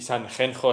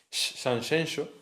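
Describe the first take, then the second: First: The name uses the Spanish j sound. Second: The name uses the Galician x sound. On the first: The speaker calls it wrong. "Sanjenjo es que pff, no suena nada bien" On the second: The speaker calls it right. "la pronunciación Sanxenxo es que suena de puta madre"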